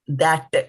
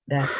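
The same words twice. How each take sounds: First: It is said with an Indian accent. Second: It is said with a plain American accent. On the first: "parents might pronounce the word that, that as that" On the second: "the word that"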